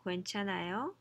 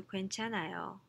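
First: 괜찮아요 with the pitch rising at the end, asking; rising question tune. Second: 괜찮아요 said as a plain statement, no rise; flat statement tune. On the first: Teacher asking if it's okay, rising question tune. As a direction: ask 괜찮아요 with a lift at the end. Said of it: "with a rising intonation". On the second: Teacher contrasting question and statement, flat tune. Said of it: "as opposed to". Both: Shown as a demonstration.

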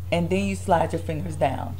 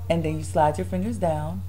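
The two takes are said the same way.

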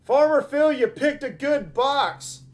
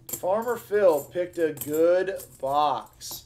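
First: High, loud shout-out; excited congratulations. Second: Half-speed, drawn-out announcement; slow, savoring repeat. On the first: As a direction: call it out like a winner. Announces a viewer's winning box. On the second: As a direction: stretch each word with relish. Repeats it slowly for effect. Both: Real, not acted.

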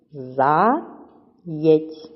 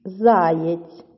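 First: "Заєць" as За... єць, long gap; split into syllables. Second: Said in the usual way. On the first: Shown as a demonstration. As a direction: say "Заєць" one syllable at a time. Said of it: "чи правильно поділили ви". («Заєць» по складах: За... єць) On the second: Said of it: "чи так у вас".

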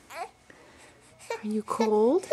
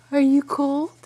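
First: Put-on tender baby talk. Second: Said in the usual way. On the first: Asking baby, slow soft.

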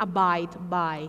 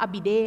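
First: Said in the usual way. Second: "abide" misread with a short i in the middle; mispronounced "abide", no eye sound; wrong reading. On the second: Shown as a demonstration. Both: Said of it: "อย่าอ่านว่า abide นะ".

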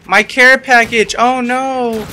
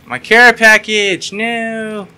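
First: High, loud, slow anguished wail. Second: High, loud, very slow wail. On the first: Gamer mourning his care package, high loud wail. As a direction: draw out the wail of loss. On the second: Gamer wailing as his care package is lost. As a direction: stretch the wail out. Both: Real, not acted.

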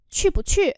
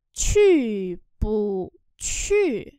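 First: Said in the usual way. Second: Very slow drawn-out teaching pronunciation; slow syllable-by-syllable model. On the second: Shown as a demonstration. Teacher models Chinese phrase for learners, very slowly. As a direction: stretch each syllable, pause between them.

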